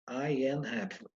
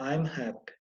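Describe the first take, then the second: First: I and am are said as two separate words. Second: I and am merge into one short syllable. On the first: "tem três palavras, eu falo as três palavras" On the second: "Para falar mais rápido"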